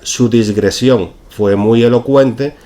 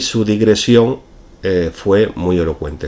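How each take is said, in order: First: The word is said with an s before g. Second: The word is said without an s before g. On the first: The speaker calls it wrong. "El ejemplo incorrecto sería" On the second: The speaker calls it right. "El segundo ejemplo es el, el correcto"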